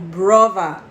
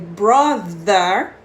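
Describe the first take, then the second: First: The middle consonant is a V sound. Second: The middle consonant is a TH sound. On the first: "eles pronunciam o T H com som de V" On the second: "ao invés deles falarem brother"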